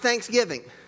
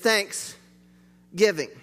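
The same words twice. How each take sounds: First: It is said as one word without a break. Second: It is said as two words with a break. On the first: It names the holiday. The speaker calls it wrong. "but it's not Thanksgiving" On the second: It means giving as an expression of thanks. The speaker calls it right. "Two words, not one word"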